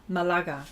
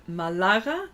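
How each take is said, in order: First: Malaga with the stress on the second A, ma-LA-ga; Spanish pronunciation. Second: Malaga stressed on the second A, maLAga, rising at the end; first try. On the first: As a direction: say Malaga the Spanish way, accent on the middle A. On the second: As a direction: try Malaga with the accent on the middle syllable. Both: Shown as a demonstration. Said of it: "the accent is on the second A".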